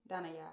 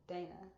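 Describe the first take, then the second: First: "Danaya" ending in an open "yah"; "Danaya" with "yah" added after Dana; corrected name pronunciation. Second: Said in the usual way. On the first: Shown as a demonstration. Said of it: "It's actually pronounced". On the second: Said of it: "It's actually pronounced Danaya".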